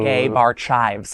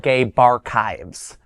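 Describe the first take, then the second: First: The name ends sounding like the word chives. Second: The name ends sounding like the word archives. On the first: The speaker calls it wrong. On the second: The speaker calls it right. "I want to say it correctly this time"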